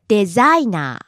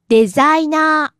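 First: The pitch rises, then falls back low. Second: The pitch rises and stays high. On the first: "Low to high, then back down to low" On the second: "Start low and stay high"

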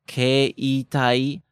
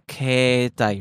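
First: The first syllable has two separate vowels, e and i. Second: The first syllable has one long e sound. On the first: "when you said it in slow motion, you said" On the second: "you just sort of extend the A sound"

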